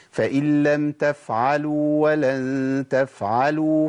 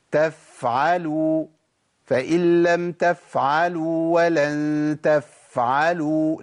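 First: تفعلوا with the فاء held just its natural time; correct faa length. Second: تفعلوا with the فاء stretched far too long, slowly; overlong faa. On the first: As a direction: show the right length of the فاء. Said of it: "شفت انا وقفت قد ايه؟". (الزمن الطبيعي للفاء) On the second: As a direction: drag out the air on every فاء. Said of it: "لا، ده كتير قوي". (مد الفاء زيادة عن اللازم) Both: Shown as a demonstration.

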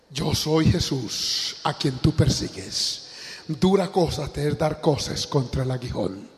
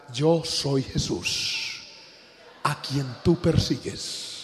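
First: Slow, grave, measured answer from heaven; a hint of a divine voice, slowed right down; solemn voice of Jesus. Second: Slow, grave answer, a little softer; quiet, unhurried divine reply; solemn voice of Jesus. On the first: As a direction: lay each word down slowly and gravely. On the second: Retold or imitated. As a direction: let the name fall slowly and heavily.

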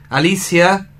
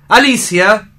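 First: Said in the usual way. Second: Alicia called louder and higher, rising; calling out. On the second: Acted. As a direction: call her name across the house. Llama a Alicia dos veces. (llamando en voz alta)

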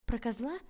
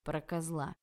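First: Puzzled question. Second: Said in the usual way. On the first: A narrator's reading. Heroine echoes in disbelief.

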